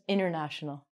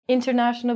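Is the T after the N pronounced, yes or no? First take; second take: no; yes. First: The T after the N is dropped. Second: The T after the N is clearly pronounced. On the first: "becomes international" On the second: "we're going to take out the T and we're going to say international becomes"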